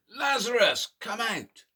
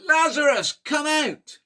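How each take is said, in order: First: Loud call that fades at the end; shout. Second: Very high, very loud full shout; louder shout. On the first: Teacher leading toddlers in a first group shout, moderately loud. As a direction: shout it with the toddlers, not yet full force. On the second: Teacher leading toddlers in the biggest shout, very loud and high. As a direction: give it everything, top of the voice. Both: Shown as a demonstration. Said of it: "shout that even louder".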